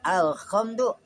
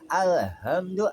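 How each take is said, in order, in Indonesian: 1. Bunyi h adalah kh yang serak dari bagian atas tenggorokan. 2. Bunyi h berasal dari bagian bawah tenggorokan. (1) "kha adanya di atas" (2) "adanya di bawah tenggorokan"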